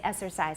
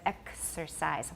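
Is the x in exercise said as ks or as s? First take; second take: s; ks. First: The x is said as a plain s. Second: The x is said as k plus s. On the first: The speaker calls it wrong. "often gets simplified into S in Taiwan English" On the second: The speaker calls it right. "It's two separate consonants, two separate sounds"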